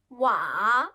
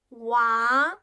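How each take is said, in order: First: The pitch dips low then rises. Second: The pitch rises from middle to high.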